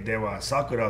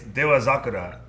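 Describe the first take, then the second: First: The second word starts with an s sound. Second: The second word starts with a z sound. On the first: The speaker calls it wrong. "it's easy to want to say Dewa Sakura" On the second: The speaker calls it right. "the pronunciation it's Dewa Sakura"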